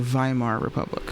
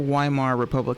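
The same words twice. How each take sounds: First: Weimar begins with a V sound. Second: Weimar begins with a W sound. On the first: The speaker calls it right. "W is a V sound" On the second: The speaker calls it wrong. "it's not the"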